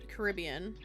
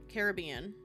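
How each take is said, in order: The two takes are said the same way.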